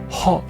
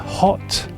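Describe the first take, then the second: First: The final T sound is cut off. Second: The final T sound is fully pronounced.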